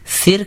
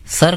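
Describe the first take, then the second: First: سر said as sir, short i after s, slow and a bit higher; sir with zer. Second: سر said as sar, short open a after s; سر with a clear short a vowel, sar; sar with zabar. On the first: Teacher contrasting zer for a student, slow سر said as sir. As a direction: draw out سر with a short i vowel, sir. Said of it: "زیر کی آواز ہے". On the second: Teacher showing a student the zabar sound, سر said as sar. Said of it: "سر کہا تو اس میں زبر کی آواز ہے". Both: Shown as a demonstration.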